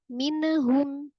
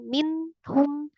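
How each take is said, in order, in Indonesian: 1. Bunyi n dilepas dengan gema yang memantul. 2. Bunyi n dipotong dengan jeda setelahnya. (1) "Jangan juga dipantulkan minhum" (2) "jangan minhum terpisah"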